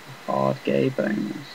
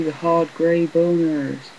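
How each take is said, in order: First: Said in the usual way. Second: High, slow, gleeful drawn-out line; excited. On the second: Pretend. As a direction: savour it like a silly treat. Gleeful game enemy joke.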